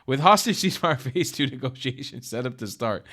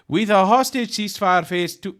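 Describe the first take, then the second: First: Said in the usual way. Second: Reading the headline in a hammed-up Farsi accent, higher and louder; mock Farsi accent. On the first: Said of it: "I'm gonna stop". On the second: Reading news headline to viewers, in a mock Farsi accent. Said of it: "I think that's my Farsi accent".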